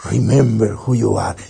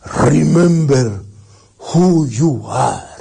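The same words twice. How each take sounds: First: Low, brisker toy catchphrase; imitating a talking toy. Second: Slow, solemn father's call with long words; Mufasa. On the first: A Disney toy repeating the father's line, lightly imitated and low. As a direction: lightly mimic a toy's recorded line, low. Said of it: "lo tocabas y decía". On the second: Acted. Father's image speaking to his son, slow and solemn. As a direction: draw each word out like a weighty command. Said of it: "de Mufasa, que le dice".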